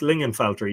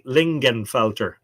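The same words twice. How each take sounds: First: The G in the middle is silent. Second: The G in the middle is sounded. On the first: The speaker calls it right. "You just uh, ignore the G" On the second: The speaker calls it wrong. "I used to say Lingenfelter"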